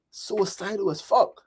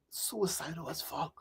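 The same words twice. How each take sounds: First: Said in the usual way. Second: Much softer, slow echo; quiet slow repetition of a dark memory; hushed. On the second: Real, not acted. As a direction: let it drop to almost nothing, heavy. Recalls teenage suicidal years.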